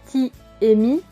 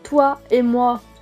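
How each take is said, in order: First: The words have an 'ee' vowel. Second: The words have a 'wa' vowel. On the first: This is the regional form. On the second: This is the standard form. "Le son wa n'existe pas non plus"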